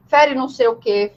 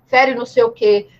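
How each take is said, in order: Both takes have the same delivery.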